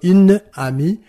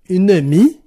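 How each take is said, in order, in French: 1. Les deux voyelles sont conservées, aucune voyelle ne tombe. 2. La première voyelle reste et la deuxième tombe. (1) "Au lieu de" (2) "on n'aura pas"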